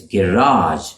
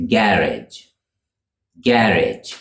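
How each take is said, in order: First: "garage" said guh-RAHZH; American second-syllable stress. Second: "garage" said GARR-idge; British "garage", rhyming roughly with carriage; British first-syllable stress. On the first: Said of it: "with the stress on the second syllable". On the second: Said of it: "with the stress on the first syllable". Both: Shown as a demonstration.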